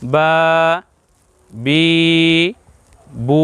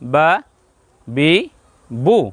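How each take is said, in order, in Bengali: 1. প্রতিটি স্বর টেনে লম্বা করে বলা হয়। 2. প্রতিটি স্বর ছোট ও সংক্ষেপে বলা হয়। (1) "একটু লম্বা হবে একটু বেশি করে বলতে হবে" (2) "সংক্ষেপে হবে ছোট হবে"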